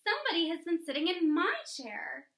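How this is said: It is said in a sweet, low voice.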